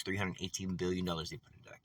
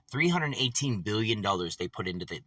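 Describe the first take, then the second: First: "Three hundred eighteen billion dollars" said low and much softer, each number weighed; hushed emphasis. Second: Said in the usual way. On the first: Shown as a demonstration. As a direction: drop the voice to let the sum sink in. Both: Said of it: "Think about that".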